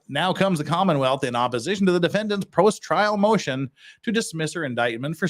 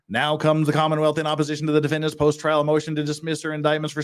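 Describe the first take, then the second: First: It is read at a slower pace. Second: It is read at a faster pace.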